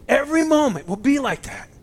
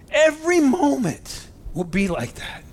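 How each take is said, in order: First: Higher and louder, overcome with emotion; swelling with moved excitement; choked up, louder. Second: Excited and moved, near tears; choked up. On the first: Preacher repeating his point, choked and excited. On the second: Preacher to his congregation, choked up with excitement. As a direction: voice rising high, choked with emotion. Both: Real, not acted. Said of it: "Sorry, I'm getting excited, getting choked up".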